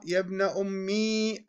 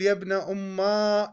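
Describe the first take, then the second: First: يا ابن أمي said softly, ending in a long ī; ya ending demo. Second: Teacher models يا ابن أما with a stretched final ā; alif ending demo. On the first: Teacher shows students the form with ī, softer. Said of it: "هذا ضعيف". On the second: Teacher models the weak form for students, ending stretched. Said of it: "عندما تقول". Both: Shown as a demonstration.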